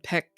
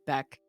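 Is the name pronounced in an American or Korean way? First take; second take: Korean; American. First: The name is said with a Korean pronunciation. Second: The name is said with an American pronunciation. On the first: "in the more Korean pronunciation" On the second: "in the more American whatever pronunciation"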